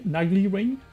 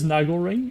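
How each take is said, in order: First: The name ends with an 'ee' sound. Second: The name ends with an 'el' sound. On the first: The speaker calls it wrong. "I'm just gonna call it Nagli ring" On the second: The speaker calls it right. "I know it should be pronounced Nagel"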